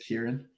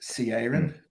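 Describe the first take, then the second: First: The name begins with a k sound. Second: The name begins with a ch sound. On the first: This is the real pronunciation. The speaker calls it right. "It should be a k" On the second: This is the common guess. The speaker calls it wrong. "everyone thinks it's a ch, but it's a k. most people guess"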